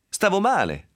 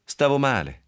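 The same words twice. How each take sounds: First: Pleading. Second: Curt. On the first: Yves defends herself in quarrel. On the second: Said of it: "gli rispose secca". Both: Acted.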